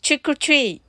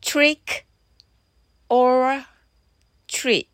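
First: It is said at a fast pace. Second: It is said at a slower pace.

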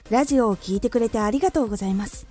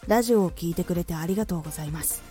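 First: It is said with raised, livelier energy. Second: It is said with low, subdued energy. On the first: "ちょっと高めのテンション" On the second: "ローテーション"

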